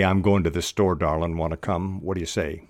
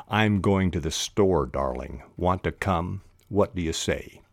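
First: Casual "goin'" and "darlin'", endings clipped short; dropped G's. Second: Said in the usual way. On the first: Shown as a demonstration. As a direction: run "wanna" and "whaddya" together casually. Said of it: "we all drop our G's". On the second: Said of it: "so it should be written".

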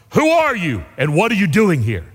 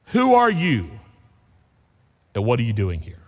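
First: Forceful challenge from a guard; voice from darkness. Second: WHO ARE YOU raised, then a pause, WHAT ARE YOU DOING HERE dropping low; pointed question. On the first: Acted. Unseen voice challenging a wandering rabbi, acted stern demand. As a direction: demand it like a sentry challenging an intruder. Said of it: "this voice came from the darkness". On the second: Real, not acted. Preacher asking the congregation, pointed question in two separated halves.

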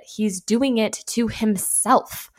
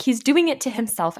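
First: Slow, drawn-out exasperated insistence; retold yell. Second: Louder, higher exasperated outburst; mock yell, quicker and defensive; retold yell. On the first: Analyst defending herself to an upset mom, mild yell. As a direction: spell it out loudly but without shouting. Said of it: "yelled at this mom". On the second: Young analyst snapping back at a mom, retold yell.

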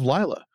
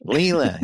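First: "Lila" with a long eye in the first syllable; other pronunciation. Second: "Leela" with a long ee in the first syllable; corrected pronunciation. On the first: Narrator names the woman in the photo, "Lila" said LYE-la. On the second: Narrator takes up co-host's correction, "Leela" said LEE-la. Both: Real, not acted.

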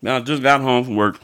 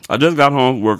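First: Said in the usual way. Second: Louder repeat, stress on just; emphatic repeat. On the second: Real, not acted. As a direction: push "just" in "I just got home from work" louder. Tired after work, repeating it.

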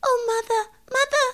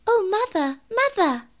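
First: Very high, frightened kitten voice. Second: High, huffy kitten voice with falling tune. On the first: Moppet to her mother after seeing a rat, frightened. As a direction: call for mother in a high, scared squeak. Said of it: "She seemed to be in a terrible fright". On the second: Mittens tipped from the jar to her mother, huffy. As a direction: call for mother in a high-pitched huff. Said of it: "said Mittens in a huff". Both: Acted.

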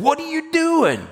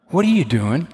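First: Sharp high rebuke; high indignant rebuke; rebuking. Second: Gentle question. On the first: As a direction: snap it as a rebuke. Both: Shown as a demonstration. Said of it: "That almost sounds like the other kind of rebuke".

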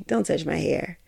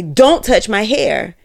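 First: Soft, sweet and much quieter, smiling through it; said with a smile. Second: Louder, slow and deliberate, each word landing; firm warning. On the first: To someone reaching for her hair, sweetly smiling and soft. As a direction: ask nicely with a smile, barely above a murmur. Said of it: "even if they smile and say". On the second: To someone reaching for her hair, a slow firm louder warning. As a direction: draw a hard line, slowly. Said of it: "Even if they say". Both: Retold or imitated.

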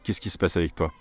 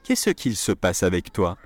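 First: "Qu'est-ce qui se passe avec toi?" with the il dropped to a quick "qui"; "qui" slurred into "passe", no L; casual spoken French. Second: "Qu'est-ce qu'il se passe avec toi?" with the il said in full; the full school version, every sound spoken; "Qu'est-ce qu'il" spelled out completely; careful textbook French. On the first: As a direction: run it together the way French people say it. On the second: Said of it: "a sentence that was before". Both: Shown as a demonstration.

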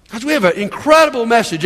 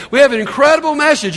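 First: Said in the usual way. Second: More energetic repeat. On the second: Shown as a demonstration. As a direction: say it again with real fire. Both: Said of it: "Boy, you guys are pretty sad".

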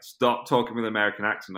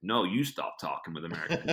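First: Mildly exasperated imitation of a girlfriend; lightly acted complaint to a partner; fed-up girlfriend. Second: "you" stressed to throw the complaint back; lightly acted comeback, leaning on "you"; retort stressing YOU. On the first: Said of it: "it drove my then girlfriend crazy". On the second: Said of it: "I'd be like".

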